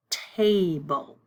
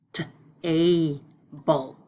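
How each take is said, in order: First: Said in the usual way. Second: "T-able" with the t sound pulled apart from "able"; onset split off. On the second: Shown as a demonstration. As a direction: separate the t, then "able".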